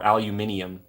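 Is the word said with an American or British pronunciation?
British. It is said with a British pronunciation.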